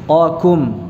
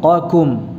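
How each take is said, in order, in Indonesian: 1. Q yang tebal diikuti k yang tipis. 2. Q yang tebal diikuti k yang tipis.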